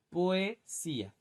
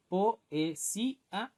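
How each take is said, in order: First: "poesía" slow and higher, in two chunks, poe and sía; vowels run together. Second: "poesía" slow, split into po, e, sí, a; syllable by syllable. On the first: Teacher demonstrating sinéresis in a verse, vowels run together. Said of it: "se pronuncian como si lo formaran". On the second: Teacher showing students which vowels get joined, syllable by syllable. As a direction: separate every vowel of "poesía": po, e, sí, a. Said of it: "o sea que aquí poesía unimos". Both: Shown as a demonstration.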